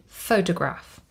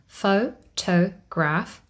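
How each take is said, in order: First: Said in the usual way. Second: Photograph broken slowly into pho, to, graph; "Photograph" spelt out in three slow, separate beats; syllable by syllable. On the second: Shown as a demonstration. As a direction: say "Photograph" at half speed, each syllable apart. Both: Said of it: "we have three syllables".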